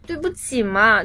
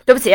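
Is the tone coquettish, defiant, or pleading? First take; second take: coquettish; defiant. First: It sounds coquettish, playful and sweetly whiny. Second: It sounds defiant and not sorry at all.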